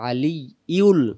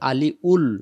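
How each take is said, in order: First: A y sound joins the middle syllables. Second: A plain vowel, with no y sound in the middle. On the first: The speaker calls it right. "ইয়া লাম পেশ ইউল" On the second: The speaker calls it wrong. "আলি উল নাই এখানে"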